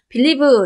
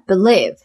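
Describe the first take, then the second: First: The stress is on the first syllable. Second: The stress is on the second syllable. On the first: The speaker calls it wrong. "이게 아니라" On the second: The speaker calls it right. "believe의 강세는 lie에 있어요"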